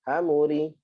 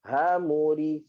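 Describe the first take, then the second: First: Quick, fluent demo reading; fast. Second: Slow, stretched demo reading; slowly. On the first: Teacher demonstrating to the class, fast reading. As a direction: say it briskly in one go. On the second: Teacher demonstrating to the class, slow reading. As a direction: draw each syllable out. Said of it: "Okey, pelan-pelan". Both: Shown as a demonstration.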